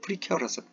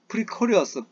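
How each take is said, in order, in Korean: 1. 두 번째 음절은 'care'처럼 들립니다. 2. 두 번째 음절은 'cor'처럼 들립니다. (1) "프리케어러스 이렇게 하셔야 됩니다" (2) "그냥 발음을 안 찾고 프리코리어스, 프리코리어스라고 이렇게 발음만 하는데"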